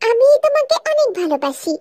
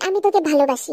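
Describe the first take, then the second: First: It is said sweetly, in a coy manner. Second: It is said plainly and reluctantly.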